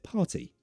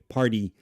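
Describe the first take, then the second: First: The middle consonant is a clear t. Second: The middle consonant sounds like a d. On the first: "British people pronounce it party" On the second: "American English, party, d, party. They pronounce T's like D's"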